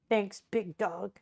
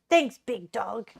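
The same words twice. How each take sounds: First: It is said in a deepened voice. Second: It is said with sporty basketball energy.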